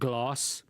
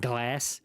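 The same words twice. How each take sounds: First: The word is said with a South African vowel. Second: The word is said with an American vowel. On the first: The speaker's original way of saying it. "instead of glass" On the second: A habit picked up from living abroad. "I'll find myself saying glass"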